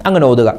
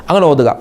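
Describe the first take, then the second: No difference in how they are said.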